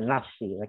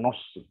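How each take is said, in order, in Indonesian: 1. n dan vokal setelahnya ringan dan tipis. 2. n dan vokal setelahnya berat dan tebal. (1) "nonnya tipis" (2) "bukan nosi"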